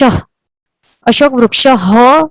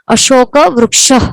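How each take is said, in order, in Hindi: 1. वाक्यांश का अंत पूरे 'ha' अक्षर से होता है। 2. वाक्यांश का अंत हल्के साँस वाले 'h' से होता है। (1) "नहीं कहना है" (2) "पर क्या कहना है"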